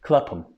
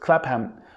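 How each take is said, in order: First: The name is not said as it is spelled. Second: The name is read out just as spelled. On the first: The speaker calls it right. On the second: The speaker calls it wrong.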